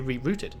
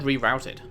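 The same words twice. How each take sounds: First: It is said with a British pronunciation. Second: It is said with an American pronunciation. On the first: The speaker calls it right. "I say rerouted. ... Isn't that the English pronunciation?" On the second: The speaker calls it wrong. "Why did I just say rerouted? ... Indoctrinated by America"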